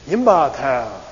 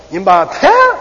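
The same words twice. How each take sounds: First: Yimba ta with the voice falling down at the end; falling tune. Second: Yimba ta, loud and high with ta rising; rising tune. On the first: Teacher demonstrates the sarcastic falling Yimba ta. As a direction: stress yimba, let ta drop low. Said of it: "Hear my voice going down?". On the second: Teacher demonstrates the believing rising Yimba ta. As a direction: lift ta up high and bright. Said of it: "listen to the other one". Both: Shown as a demonstration.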